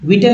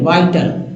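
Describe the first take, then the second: First: The first vowel is a short 'ih' sound. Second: The first vowel sounds like 'eye'. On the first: The speaker calls it wrong. "विटल नहीं" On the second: The speaker calls it right. "आई ही को आई यहाँ पढ़ा जा रहा है"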